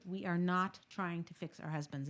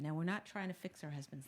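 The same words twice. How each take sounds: First: Deliberate, emphatic "not" to be heard clearly; stress on not. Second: Said in the usual way. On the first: Shown as a demonstration. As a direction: hit the word "not" hard and hold it. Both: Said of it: "hear me clearly".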